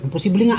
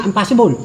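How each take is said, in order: First: "Imposible" said the Tagalog way, im-po-SI-ble with a pure o; "Imposible" in Filipino, four even syllables; Filipino pronunciation. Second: "impossible" said the English way, im-PAS-i-bol; American vowels on "impossible"; "impossible" with English stress on the second syllable; English pronunciation. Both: Shown as a demonstration. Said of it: "Filipino vs English pronunciation".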